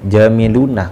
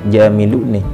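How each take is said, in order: First: The final nun is said with an a vowel. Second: The final nun is said with an i vowel. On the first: This is the common, standard reading. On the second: This is a rare reading, allowed in special cases like poetry.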